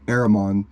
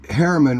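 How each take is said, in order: First: The name is said in its original form. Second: The name is said in its anglicized form. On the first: This is the name's actual form. "It's actually Aramon" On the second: This is how English speakers pronounce it. "which is the English. Harriman is an English derivative"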